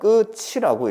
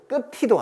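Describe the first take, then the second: First: The middle consonant is a ch sound. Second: The middle consonant is a t sound. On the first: The speaker calls it right. "끝이도 아니고 끝이라고 읽어요" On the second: The speaker calls it wrong. "티를 올려서 끝이도 아니야"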